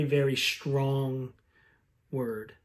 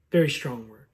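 First: Very strong said slowly, dropping to a soft word; slow hushed emphasis. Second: Said in the usual way. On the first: Shown as a demonstration. Pastor stressing how heavy forsaken is, slow and hushed. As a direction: lean into very strong, let word fall quiet.

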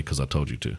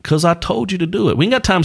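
First: Low, soft throwaway quote; tossed off under the breath; muttered quote. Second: High mock-stern parent voice; bossy parent. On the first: Retold or imitated. Dad quoting the line he swore never to say, softly. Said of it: "I'm never gonna say". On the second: Dad imitating himself ordering his kids, high and bossy. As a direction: play the parent who won't explain. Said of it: "It's like".

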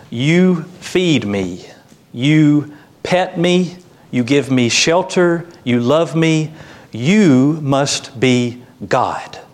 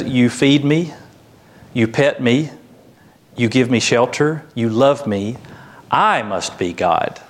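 First: Slow, higher, awestruck dog voice; adoring dog. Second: Conclude smugly that I is the divine one; self-important cat. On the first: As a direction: gush slowly at your owner, weighting each YOU. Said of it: "The dog looks at his owner and he says". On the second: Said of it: "The cat looks at you and says". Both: Acted.

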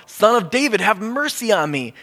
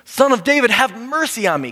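First: Pleading call from the roadside. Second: Much higher and louder cry; shouting all the more. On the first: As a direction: call out to Jesus over the crowd. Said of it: "So he calls out". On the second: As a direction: shout past everyone telling him to stop. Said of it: "he shouted all the more". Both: Retold or imitated.

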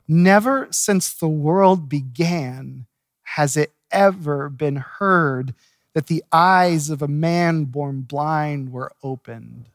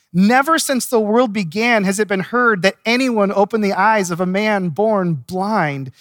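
First: "Never" leaned on, the whole verse drawn out slowly; slow emphatic reread. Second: Said in the usual way. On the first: Shown as a demonstration. Preacher rereading the verse so the congregation catches it, slow and weighty. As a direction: let every word of it land. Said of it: "I want you to catch what's in verse thirty-two". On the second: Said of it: "I want you to catch".

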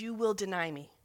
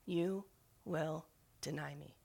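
First: Said in the usual way. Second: Much softer and slow, like a memory echoing; remembered words. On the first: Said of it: "he says". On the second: Retold or imitated. Jesus's words returning to Peter's mind, soft and slow. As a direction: let it drift back, hushed and slow. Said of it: "the words of the Messiah come back to him".

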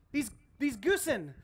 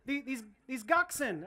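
First: "goosen" tried as a plural, said with a hard g; mock plural. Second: "goxen" tried as a plural, rhymed with oxen; trying out "goxen" like oxen; mock plural. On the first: Pastor jokes with the church over "goosen", hesitant. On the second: Pastor jokes with the church over "goxen", hesitant. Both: Shown as a demonstration. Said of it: "I don't know how you pluralize it".

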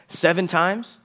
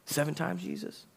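First: SEVEN pitched high and loud, rising question; offering seven as plenty. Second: High, soft voice climbing on "Jesus"; mock incredulous question. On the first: Acted. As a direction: punch "Seven" as a big number, ask it. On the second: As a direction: ask it small and high, rising to the end. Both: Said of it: "trying to say seven's a lie".

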